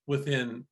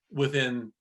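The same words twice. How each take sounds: The two takes are said the same way.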